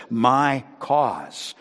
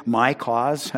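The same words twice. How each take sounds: First: "my" weighted with a falling close; stress on my. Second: "my" stressed with a rise. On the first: Pastor underlining God's ownership, falling tune. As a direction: land firmly on "my". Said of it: "how it says". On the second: Pastor highlighting the word for the church. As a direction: point at "my" in "my cause". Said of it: "notice that phrase". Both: Shown as a demonstration.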